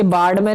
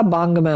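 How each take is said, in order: First: बाढ़ में with a flapped d sound; wrong pronunciation. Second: बांग में with ng, baang-may; nasal ng in बांग में; corrected pronunciation. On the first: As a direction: say बाढ़ में as baad-may. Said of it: "नहीं होता". (बाढ़ में को 'ड़' से बोलें) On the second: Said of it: "होता है". (बांग में में 'ङ' की ध्वनि बोलें) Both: Shown as a demonstration.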